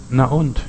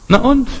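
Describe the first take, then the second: First: Said in the usual way. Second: "Na und?" tossed off much higher, with a shrug; a defiant, high "Na und?"; shrugging na und. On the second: Shown as a demonstration. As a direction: make "Na und?" leap high and carefree. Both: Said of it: "was ich gelernt habe zu sagen".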